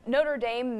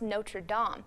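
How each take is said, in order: First: It is said with an American English pronunciation. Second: It is said with a French pronunciation. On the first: It names the American university. "may be okay for the Fighting Irish" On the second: It names the church in France. "the French church that partially burned down this year is pronounced"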